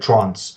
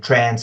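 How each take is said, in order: First: It is said in an Australian accent. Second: It is said in an American accent. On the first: This is how the speaker's own group says it. The speaker calls it right. "We say trance" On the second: This is how the other group says it. The speaker calls it wrong. "the way that you guys say trance is wrong"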